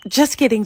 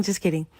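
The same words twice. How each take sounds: First: Teasing. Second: Soft, dropped repeat of the joke; under the breath. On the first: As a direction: shout it out as a cheeky joke. Teasing sister takes back jab. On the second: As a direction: mumble it to yourself. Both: Retold or imitated.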